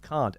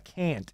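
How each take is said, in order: First: It is said with a non-American-sounding vowel. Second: It is said with an American-sounding vowel. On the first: It is the local pronunciation. The speaker calls it right. "instead of can't" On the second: It copies the pronunciation heard on television. The speaker calls it wrong. "He says uh, can't instead of"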